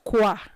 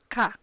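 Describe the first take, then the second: First: The syllable begins with a kw sound. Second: The syllable begins with a plain k sound. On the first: The speaker calls it wrong. "It's not qua" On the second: The speaker calls it right. "you pronounce the q and u as k"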